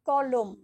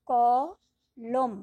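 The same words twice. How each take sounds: First: Said in the usual way. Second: কলম with the ক dragged out very long and louder; slow, long-held কলম; stretched syllable. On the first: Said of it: "যেমন". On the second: Shown as a demonstration. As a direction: hold the first sound of কলম. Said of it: "টানতে পারছি মুক্তাক্ষর".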